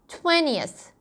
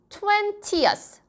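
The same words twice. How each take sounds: First: The t after the n is flapped. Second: The t after the n is crisp. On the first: "약간 t를 굴리시고 싶으신 분은" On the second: "이십에다가 years를 붙여서 twentieth 해도 되고"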